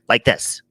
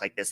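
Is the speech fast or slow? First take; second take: slow; fast. First: It is spoken at a slow, sleepy pace. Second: It is spoken at a fast, energetic pace. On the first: The speaker is not yet caffeinated. "I'm also talking slower this morning because coffee hasn't kicked in yet" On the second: The speaker is caffeinated. "normally when I talk like this and I'm caffeinated"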